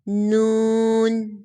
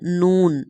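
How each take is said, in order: First: The letter is said in careful recitation style. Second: The letter is said in ordinary Urdu style. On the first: "अब तजवीद के साथ अदा करना सीखते हैं ... हम इसको ऐसे अदा करेंगे" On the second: "नून नॉर्मल उर्दू में"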